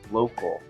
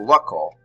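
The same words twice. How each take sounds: First: The first vowel is a long O sound. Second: The first vowel is a short O sound. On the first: The speaker calls it right. "I try pronouncing the word with the long E sound in the first syllable" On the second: The speaker calls it wrong. "I might try a short O like a local, which doesn't make sense to me"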